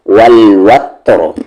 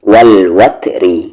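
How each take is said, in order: First: The word ends on a stopped, heavy r. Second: The word continues with a light r plus vowel. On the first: The reciter pauses on the word. "Heavy" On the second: The reciter continues without pausing. "Light"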